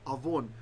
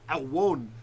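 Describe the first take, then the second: First: The middle consonant is a v sound. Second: The middle consonant is a w sound. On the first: This is today's pronunciation. "it's avon" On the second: This is the ancient pronunciation. "the ancient pronunciation would have been al, it would have been awon"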